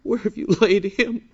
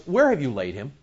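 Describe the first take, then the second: First: High-pitched, mock-sympathetic asking; mistakenly tender question. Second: Indignant. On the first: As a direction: ask it in a put-on, pitying higher voice. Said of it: "don't think that Jesus turned to one of them and said". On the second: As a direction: ask it as an indignant demand. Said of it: "The Greek says he was indignant". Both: Shown as a demonstration.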